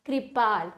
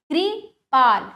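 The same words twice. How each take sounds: First: Said in the usual way. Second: Kripal slowly as कृ... पाल; broken into syllables. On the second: Shown as a demonstration. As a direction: pause after कृ in कृपाल. (कृपाल को तोड़कर: कृ... पाल) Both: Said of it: "तोड़कर पहले".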